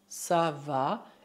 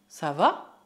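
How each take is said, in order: First: The voice falls or stays level at the end. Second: The voice rises at the end. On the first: It states that things are fine. "basta usar a frase ça va" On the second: It asks whether someone is fine. "dar uma entonação ascendente nela"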